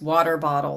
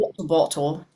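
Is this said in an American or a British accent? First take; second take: American; British. First: American accent, with the T's softened to a D. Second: British accent, with strongly pronounced T's. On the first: "I would say in my own voice" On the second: "And in British it would be like"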